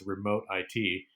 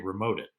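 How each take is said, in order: First: IT is spelled out as two letters. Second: It is said as the single word it. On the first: "you can talk about it as remote I T" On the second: "we actually say remote it"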